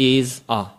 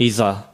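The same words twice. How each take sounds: First: There is a break between the two words. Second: The two words are linked without a break.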